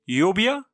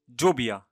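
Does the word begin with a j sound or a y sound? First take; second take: y sound; j sound. First: The word begins with a y sound. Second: The word begins with a j sound. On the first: "يمكن ان ننطقهما يا" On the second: "وكذلك جا"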